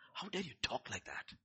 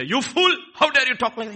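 First: Much quieter, restrained reproach; hushed acted reproof; soft rebuke. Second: Loud, high-pitched acted outburst; furious mock scolding, far louder and higher; angry rebuke. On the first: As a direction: scold gently, without raising the voice. Contrast with the shouted rebuke. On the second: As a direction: explode in a scolding shout. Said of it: "He didn't say".

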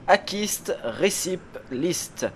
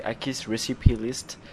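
First: Slow, high, exaggerated English accent on Akist Recipe List; mock English accent. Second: Put-on "Akist Recipe List" in a lighter, slightly slow English accent; light mock English accent. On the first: (accent anglais exagéré, lent et aigu) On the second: (léger accent anglais moqueur) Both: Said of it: "avec mon accent formidable".

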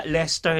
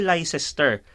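First: 'Leicester' as LES-ter; actual pronunciation. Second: 'Leicester' as LAI-ses-ter; reading as written. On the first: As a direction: shorten 'Leicester' to two beats. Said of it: "lang siya i-pronounce". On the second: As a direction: sound out 'Leicester' from its spelling. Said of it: "so pag tingnan mo". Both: Shown as a demonstration.

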